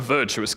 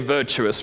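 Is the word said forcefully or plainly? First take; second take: forcefully; plainly. First: The word is said in a powerful voice. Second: The word is said in a plain voice.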